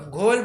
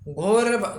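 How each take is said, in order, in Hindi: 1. शब्द का अंत ल ध्वनि से होता है। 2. शब्द का अंत र ध्वनि से होता है। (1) "यहाँ पहले र का प्रयोग ल के रूप में किया है" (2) "यहाँ पहले र का प्रयोग ल के रूप में किया है"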